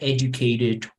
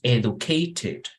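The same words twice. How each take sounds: First: The middle T is a soft R-like tap. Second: The middle T is a strong, clear T. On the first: "the T and D in the middle, they become a soft R" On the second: "en inglés británico la T es fuerte"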